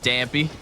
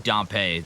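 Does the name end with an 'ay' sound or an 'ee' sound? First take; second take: ee; ay. First: The name ends with an 'ee' sound. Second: The name ends with an 'ay' sound. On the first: The speaker calls it wrong. "it's not Dampy" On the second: The speaker calls it right. "it is probably Dampé, like Pompeii"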